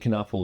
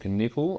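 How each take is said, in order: First: The name's first syllable sounds like 'nuff'. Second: The name's first syllable sounds like 'nip'. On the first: "I've been pronouncing it Knuffle this whole time" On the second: "there's no way his name's actually got nipple in it"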